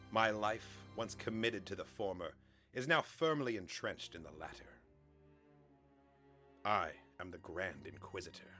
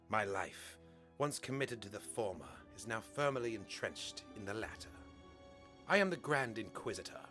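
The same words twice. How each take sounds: First: It is said in his ordinary voice. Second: It is said in a put-on character voice.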